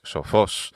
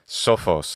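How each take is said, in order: First: The stress is on the last syllable. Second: The stress is on the first syllable. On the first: The speaker calls it right. "The accents on the final there" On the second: The speaker calls it wrong. "not sophos"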